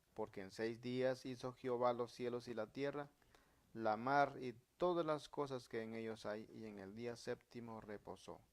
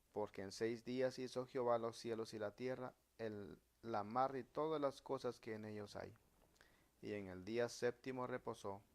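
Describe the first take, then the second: The two takes are said the same way.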